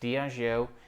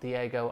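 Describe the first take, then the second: First: It is said with a middle 'j' sound. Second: It is said without a middle 'j' sound. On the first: The speaker calls it right. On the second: The speaker calls it wrong.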